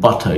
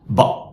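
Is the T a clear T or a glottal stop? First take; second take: clear t; glottal stop. First: The T is released as a clear T sound. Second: The T is replaced by a catch in the throat. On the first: "instead of saying butter" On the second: "you say butter, butter"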